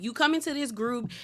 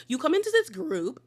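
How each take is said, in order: First: Said in the usual way. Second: High-pitched imitation British accent; attempted British accent, pitched up; mock British accent. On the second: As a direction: mimic someone putting on a British accent. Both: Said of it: "doing, like, a British accent".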